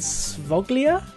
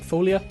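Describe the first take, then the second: First: The name begins with an S sound. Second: The name begins with an F sound.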